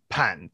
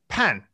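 First: The pitch dips low and then rises. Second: The pitch falls sharply from high to low. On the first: "third tone" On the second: "fourth tone"

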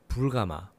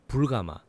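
No difference in how they are said.

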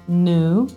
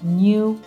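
First: It has no Y glide before the vowel. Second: It has a Y glide before the vowel. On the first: "in americano invece si pronuncerebbero così" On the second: "in British English lo yod dropping lo troviamo in parole come new"

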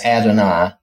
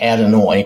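First: The last syllable has a long I sound. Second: The last syllable has no long I sound. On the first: The speaker calls it right. "I've always heard it as Adonai" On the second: The speaker calls it wrong. "this looks like Adonai, which is, far as I know, not correct"

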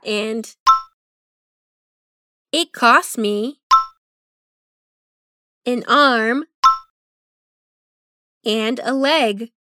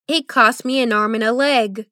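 First: The phrase is said at a slower pace. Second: The phrase is said at a faster pace. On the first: "Dilo conmigo" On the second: "Más rápido"

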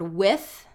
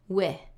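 First: The final th sound is pronounced. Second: The final th sound is dropped. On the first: The speaker calls it right. "with the word with" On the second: The speaker calls it wrong. "it would just be wih"

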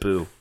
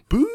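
First: It sounds like a disapproving thumbs-down boo. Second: It sounds like a spooky Scooby-Doo ghost boo.

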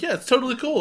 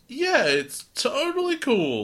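First: It is said in a relaxed, natural way. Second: It is said in a forced, strained way. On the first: The speaker is genuinely fine. "rather than just being like" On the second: The speaker is pretending to be fine. "it felt forced"

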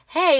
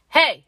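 First: It sounds light and friendly. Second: It sounds sharp and aggressive.

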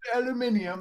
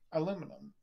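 First: The word is said with five syllables. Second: The word is said with four syllables. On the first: "That sounds fucking pretentious" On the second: "What about aluminum?"

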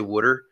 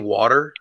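First: Water is said with a Philadelphia accent. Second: Water is said in a general American way. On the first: "I say water. ... weird niches that we have here in Philly" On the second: "I don't say water sometimes"

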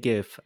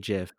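First: The word starts with a hard g sound. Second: The word starts with a j sound. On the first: This is how the other person says it. "You say GIF" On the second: This is how the speaker says it. "I say JIF"

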